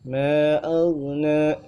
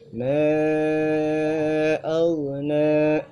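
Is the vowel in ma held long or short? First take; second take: short; long. First: The vowel in ma is held for two beats. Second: The vowel in ma is held for four or more beats. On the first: The speaker calls it wrong. "hanya baca dua harakat" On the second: The speaker calls it right.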